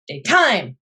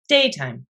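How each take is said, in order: First: The stress is on the second syllable. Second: The stress is on the first syllable. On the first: The speaker calls it wrong. "Daytime sounds funny" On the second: The speaker calls it right. "day gets more of a hit than time"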